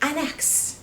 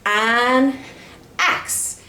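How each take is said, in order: First: It is said fast, words run together. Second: It is said slowly, word by word.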